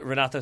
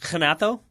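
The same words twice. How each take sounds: First: The first R is a hard English R. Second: The first R is not a hard R.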